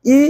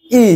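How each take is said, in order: First: ই said short and clipped, little breath; a quick short ই; short hrasva i vowel. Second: ই held long with more breath; long dirgha i vowel. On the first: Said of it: "বাতাস আমি একটু কম ব্যবহার করব". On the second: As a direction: stretch the ই out. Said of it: "আর একটু বেশি ব্যবহার করব". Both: Shown as a demonstration.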